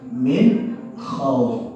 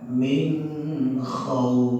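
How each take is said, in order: First: The n is pronounced clearly without nasal hum. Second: The n is hidden with a nasal hum. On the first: The speaker calls it right. "Harus jelas itu min khauf izhar jelas" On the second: The speaker calls it wrong. "dibaca min khauf salah total"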